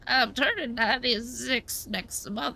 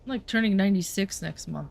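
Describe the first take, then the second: First: It is said in an old lady voice. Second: It is said in her normal voice.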